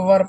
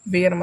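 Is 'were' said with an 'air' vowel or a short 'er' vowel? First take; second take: er vowel; air vowel. First: The word has a short 'er' vowel. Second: The word has a long 'air' vowel. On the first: The speaker calls it right. "इसको वर पढ़िए" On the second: The speaker calls it wrong. "वेयर मत पढ़िए"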